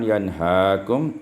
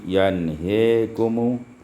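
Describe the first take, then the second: First: The vowel after h is a clear open a. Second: The vowel after h leans toward e.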